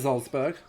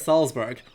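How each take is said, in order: First: The name is said with a German pronunciation. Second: The name is said with an American pronunciation. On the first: "that that actually sounds more right" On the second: "American pronunciation says Salzburg"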